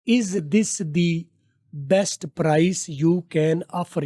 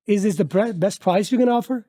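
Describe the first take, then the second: First: It is said in a local Indian English accent. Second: It is said in a native English accent. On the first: The speaker calls it wrong. "ये आप local बोलते हैं।" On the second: The speaker calls it right. "अब हम चलते हैं इसको गोरा कैसे बोलता है।"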